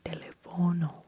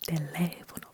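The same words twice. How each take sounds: First: The stress falls away from the second syllable. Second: The stress falls on the second syllable. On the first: The speaker calls it wrong. "We don't say teléfono" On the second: The speaker calls it right. "We say teléfono because there is stress"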